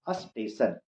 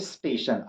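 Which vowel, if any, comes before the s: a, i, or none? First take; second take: a; none. First: A clear 'a' vowel comes before the s. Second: The word starts directly with the s sound. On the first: The speaker calls it wrong. "पूरा clear अ बोलते हैं पहले में" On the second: The speaker calls it right. "स स का उच्चारण करें"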